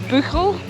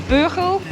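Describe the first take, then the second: Both takes have the same delivery.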